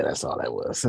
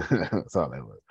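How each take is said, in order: First: Said in the usual way. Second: Laughing it off. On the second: Real, not acted. Shrugging off his self-criticism to viewers, laughing. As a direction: chuckle through the words.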